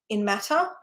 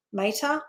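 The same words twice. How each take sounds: First: "matter" with a short a, MAT-ter; plain "matter". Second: "mater" with a long a, MAY-ter, rising. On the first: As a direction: say "matter" as in physical stuff. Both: Shown as a demonstration. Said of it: "like the mater".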